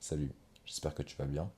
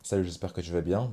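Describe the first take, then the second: First: It is said in a deep, smooth voice. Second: It is said in an ordinary voice.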